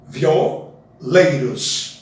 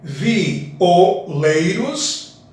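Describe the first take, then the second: First: Vi and o are joined into one syllable. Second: Vi and o are said as separate syllables. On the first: "Juntar o vi com o em um único som" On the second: "quatro sons"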